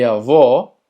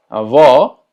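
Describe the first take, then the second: First: Avó said with a closed final o; closed avô. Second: Avó with open, loud final o. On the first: Teacher explains the circumflex, avó with closed o. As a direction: round and close the last vowel of avó. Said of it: "que la pronunciación sea cerrada". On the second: Teacher explains the acute accent, open avó. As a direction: open the stressed ó of avó wide. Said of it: "el cual es abierto". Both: Shown as a demonstration.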